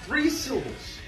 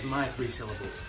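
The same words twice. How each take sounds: First: Three hit high and hard; stress on Three. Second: My stressed, the rest soft and low. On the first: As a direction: punch the word Three, then let it fall. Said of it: "Three syllables that don't hold the same amount". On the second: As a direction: lean on my, drop the rest. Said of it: "you know what my three syllables are". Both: Shown as a demonstration.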